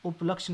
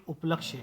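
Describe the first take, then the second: First: उपलक्ष्य ending in bare 'ksh'; wrong pronunciation. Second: उपलक्ष्य ending in 'kshye'; correct pronunciation. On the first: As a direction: drop the final य from उपलक्ष्य. (उपलक्ष्य को य के बिना बोलना) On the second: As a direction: finish उपलक्ष्य on य, falling. (उपलक्ष्य में क्ष्य का पूरा उच्चारण) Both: Shown as a demonstration. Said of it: "उपलक्ष्य नहीं".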